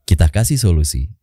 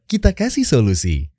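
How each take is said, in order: First: It is spoken plainly, with no smile or laughter. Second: It is spoken with a smile in the voice. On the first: "Gua nggak pakai teknik smiling voice nih" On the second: "Pakai smiling voice"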